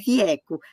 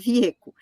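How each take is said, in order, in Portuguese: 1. A vogal E é pronunciada aberta. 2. A vogal E é pronunciada fechada.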